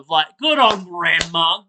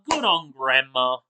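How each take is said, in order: First: "good on grandma" with a bright rising lift on "good"; cheering. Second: Said in the usual way. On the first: Real, not acted. Praising the grandma in the video, upbeat rising cheer.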